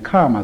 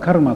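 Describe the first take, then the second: First: The word has a long vowel instead of r. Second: The word has an r sound in the middle. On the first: This is how English speakers say the word. "カーマと言っているんですがね" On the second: This is how the word is said in Japanese. "彼らはカルマと言わないで"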